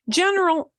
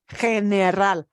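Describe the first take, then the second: First: The word is said with English vowels and consonants. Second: The word is said with Spanish vowels and consonants. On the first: "en inglés" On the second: "pero general"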